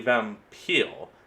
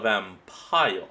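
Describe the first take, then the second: First: It uses the old, original pronunciation of the word. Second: It uses the usual modern pronunciation of the word. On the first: "That's actually how the original spelling was pronounced" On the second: "not a vampire"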